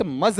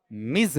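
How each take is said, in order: First: मज with a neutral 'uh' vowel; non-prevalent pronunciation. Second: मिज with a short i; prevalent pronunciation. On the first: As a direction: say मज as 'muhz'. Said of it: "prevalent मज नहीं है". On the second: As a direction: lower मिज, said as 'miz'. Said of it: "बल्कि क्या बताओ आपका". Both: Shown as a demonstration.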